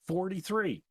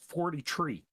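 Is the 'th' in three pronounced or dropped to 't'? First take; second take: pronounced; dropped. First: The word three begins with a th sound. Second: The word three begins with a t sound. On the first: The speaker calls it wrong. "actually, no" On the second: The speaker calls it right. "because that's the way a new"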